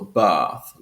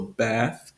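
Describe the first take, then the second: First: The vowel is a long ah sound. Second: The vowel is short, like in trap. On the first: "it has a long ah sound" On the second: "that ah sound"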